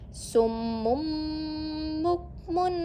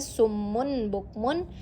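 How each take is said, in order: First: An m sound comes before the b. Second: An n sound comes before the b. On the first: The speaker calls it right. "yang benar adalah summum bukmun" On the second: The speaker calls it wrong. "jika kalian membaca summun bukmun itu salah"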